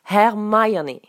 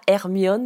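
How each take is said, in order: First: The name is pronounced the English way. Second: The name is pronounced the French way. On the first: The speaker calls it right. "mais Hermione" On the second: The speaker calls it wrong. "ça ne se prononce pas Hermione"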